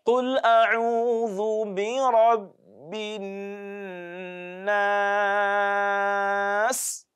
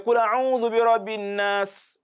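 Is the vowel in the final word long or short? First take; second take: long; short. First: The vowel in the last word is lengthened. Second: The vowel in the last word is short. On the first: The speaker calls it right. "You can see that the elongation there" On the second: The speaker calls it wrong. "Don't say"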